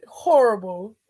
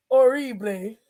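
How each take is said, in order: First: Said in the usual way. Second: "Horrible" said like "orreeblay"; playful mispronunciation. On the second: Real, not acted. Upset woman repeating her verdict, "Horrible" as "orreeblay". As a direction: drop the H and stress "ree" in "Horrible".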